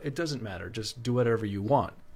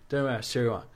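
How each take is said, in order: First: Every word is spoken fully and distinctly. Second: The words are mumbled and slurred together. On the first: Anyone can understand it. "you could understand it" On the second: Only someone from home would understand it. "if I said it to my brother in this way"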